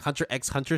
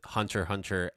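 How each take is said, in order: First: The X is spoken between the words. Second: The X is silent between the words. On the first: The speaker calls it wrong. "Hunter x Hunter sounds weird" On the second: The speaker calls it right. "officially, they're both Hunter Hunter"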